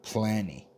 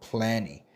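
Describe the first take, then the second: The two takes are said the same way.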